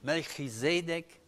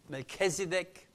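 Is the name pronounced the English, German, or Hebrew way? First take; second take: Hebrew; English. First: The name is pronounced the Hebrew way. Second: The name is pronounced the English way.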